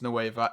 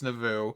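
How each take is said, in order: First: The word ends with a 'vah' sound. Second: The word ends with a 'voh' sound. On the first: The speaker calls it wrong. "It's not pronounced Nueva at all" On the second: The speaker calls it right. "It's Nouveau"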